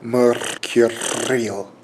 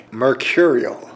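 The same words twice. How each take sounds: First: "Mercurial" slowed right down, both R's trilled; "Mercurial" drawn out with two showy tongue trills; double-rolled R's. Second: Said in the usual way. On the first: Shown as a demonstration. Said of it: "double rolling mer-, mercurial is tough". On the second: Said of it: "double rolling mer".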